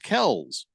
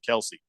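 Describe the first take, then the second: First: The name is said with one syllable. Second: The name is said with two syllables. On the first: This is how the family says the name. The speaker calls it right. "we've been saying the name wrong. It's Kells" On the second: This is the familiar way people say the name. The speaker calls it wrong. "I'm sticking with Kelce"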